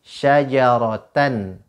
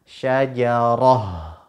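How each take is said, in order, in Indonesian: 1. Kata ini diakhiri dengan bunyi n. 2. Kata ini diakhiri dengan bunyi h.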